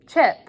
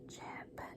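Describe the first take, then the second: First: It is said loudly. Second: It is said very quietly, almost whispered.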